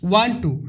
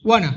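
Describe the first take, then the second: First: It is said as two separate words. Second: It is blended into one short word. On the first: "ওয়ান টু এর জায়গায়" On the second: "তোমরা কিন্তু বলতে পারো ... ওয়ানা"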